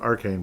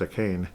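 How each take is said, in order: First: The first syllable sounds like 'ar'. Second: The first syllable sounds like 'uh'. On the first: The speaker calls it wrong. "I keep calling him Arcane" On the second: The speaker calls it right. "but it's a cane"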